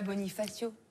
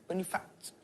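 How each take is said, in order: First: The word ends with its full final vowel. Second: The word is cut short, final vowel dropped. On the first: The speaker calls it wrong. "Tu dis pas" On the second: The speaker calls it right. "il faut pas prononcer la fin des mots"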